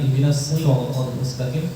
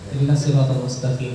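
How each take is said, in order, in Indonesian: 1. Huruf s dalam siratal tebal dan emfatis. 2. Huruf s dalam siratal terdengar seperti s biasa. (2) "cuman karena agak ngebut jadi agak-agak kesin deh"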